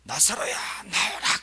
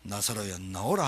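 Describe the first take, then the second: First: Not lowered. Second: Very low, soft summons; 김세중 목사님. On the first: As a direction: call out lightly, stretching the words upward. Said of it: "그래, 안 했다". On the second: Preacher as Jesus calling Lazarus, in a lowered pastor's voice. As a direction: drop the voice deep and call quietly. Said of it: "김세중 목사님 목소리 해야 되는데". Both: Shown as a demonstration.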